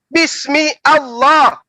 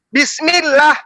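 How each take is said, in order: First: Allah is said as a separate word. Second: Allah is joined to bismi as -llah.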